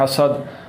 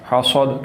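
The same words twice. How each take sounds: First: The s sounds thin with a whistle. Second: The s sounds heavy and full. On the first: The speaker calls it right. "बरीक पढ़ना है" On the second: The speaker calls it wrong. "मैं पुर करके पढ़ रहा हूँ"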